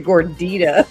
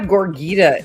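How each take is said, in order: First: The third consonant is a D sound. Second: The third consonant is a G sound. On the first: The speaker calls it right. "it's a Gordita" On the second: The speaker calls it wrong. "he mispronounces it and he calls it a cheesy Gorgita"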